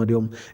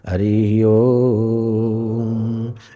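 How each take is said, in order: First: It is said quickly and clipped short. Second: It is said at a moderate length. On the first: It destroys sins. "अगर short करते हैं" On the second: It improves ability in worldly affairs. "मध्यम उच्चारण"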